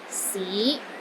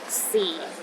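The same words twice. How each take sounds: First: The pitch rises from low to middle. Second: The pitch sits at the very bottom. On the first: City. "It starts low, then rises to the middle of your range" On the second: Time. "The fourth tone is the lowest tone"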